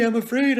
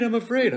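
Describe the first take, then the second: First: Much higher, louder, mock-scared "afraid"; overplayed whimper on "afraid"; hammed-up fear. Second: High, loud, mock-scared "afraid" falling away; overplayed fright, falling on "afraid"; hammed-up fear. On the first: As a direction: ham up "I'm afraid" like a bad actor. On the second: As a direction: repeat "I'm afraid" with a dropping overdone wail. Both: Shown as a demonstration. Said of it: "the worst thing you can do playing Macbeth is go".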